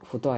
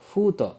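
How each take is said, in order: First: The first vowel is short. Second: The first vowel is long. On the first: The speaker calls it wrong. "ಇದು ಫುತೋ ಆಯಿತಾ" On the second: The speaker calls it right. "ಫೂ ಇದು ಎಳಿಬೇಕು"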